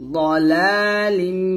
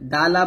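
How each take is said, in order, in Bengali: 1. প্রথম ব্যঞ্জনটি একটি ভারী এমফ্যাটিক ধ্বনি। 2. প্রথম ব্যঞ্জনটি একটি সাধারণ হালকা d। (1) "যালালিম বলতে হবে" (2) "দালা বলবেন না"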